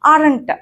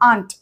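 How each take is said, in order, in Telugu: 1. ఇది రెండు అక్షరాలుగా పలుకుతారు, ar-ent. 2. ఇది ఒక అక్షరంగా పలుకుతారు, aunt లాగా. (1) "నేను మీకు అర్థం కావాలని చెప్తున్నా కానీ అరంట్ అనకూడదు" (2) "ఆంటీలో ఆంట్ ఉంటుంది కదా, ప్రొనౌన్సియేషన్ అట్లనే"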